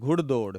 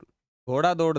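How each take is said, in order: First: The first vowel is short, as one word. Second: The first vowel is long, as two words. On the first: The speaker calls it right. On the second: The speaker calls it wrong.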